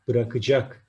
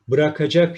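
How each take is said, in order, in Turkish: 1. Ortadaki ünlü daralmış, kapalı bir ünlüdür. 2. Ortadaki ünlü tam, açık bir ünlüdür. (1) "Harf daralması kuralı gereği bırakacak deriz" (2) "bırakacak şeklinde yazılır"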